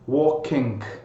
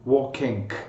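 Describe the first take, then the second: The two takes are said the same way.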